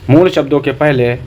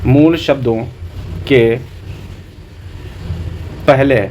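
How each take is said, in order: First: Said in the usual way. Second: मूल शब्दों, के, पहले parcelled out with long pauses; long gaps before के and पहले; dictation pace. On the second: Shown as a demonstration. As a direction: dictate it piece by piece for note-taking. Dictates a definition for notes.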